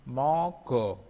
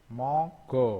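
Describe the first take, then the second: The two takes are said the same way.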